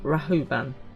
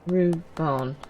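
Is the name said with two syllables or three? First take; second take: three; two. First: The name is said with three syllables. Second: The name is said with two syllables. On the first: The speaker calls it wrong. "Not Rahuban" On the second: The speaker calls it right. "Ruban. Not Rahuban"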